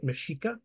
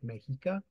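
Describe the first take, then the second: First: The middle consonant is an sh sound. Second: The middle consonant is an h sound. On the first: "X is unique Aztec sounding, and it's like sh" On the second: "some people use an H at that"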